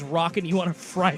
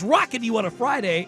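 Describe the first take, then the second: First: It is said in a normal speaking voice. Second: It is said in an exaggerated announcer voice. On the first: "what was Rob's uh, least favorite phrase" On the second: "I tried to say in a special voice"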